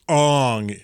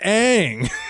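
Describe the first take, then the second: First: The vowel sounds like the 'o' in 'on'. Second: The vowel sounds like the 'a' in 'cat'. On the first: This is the pronunciation used in the movie. The speaker calls it wrong. "it would pronounce, be pronounced Ong in Asia" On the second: This is the pronunciation used in the cartoon. The speaker calls it right. "No, his name is Aang"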